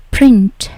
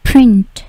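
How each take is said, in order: Both takes have the same delivery.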